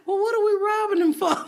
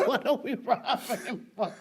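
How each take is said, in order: First: High, loud mock bewilderment; baffled question. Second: Words lost in real laughter; laughing repeat. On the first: Comic to crowd ready to rob, baffled retold question. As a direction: act out a puzzled cry to a mob. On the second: Real, not acted. Comic repeating her punchline to host, laughing hard. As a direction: repeat the punchline while cracking up.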